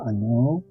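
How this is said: It is said gloomily in a low, drooping pitch. The speaker is feeling down. "기분이 다운되고 "안녕." 처져요"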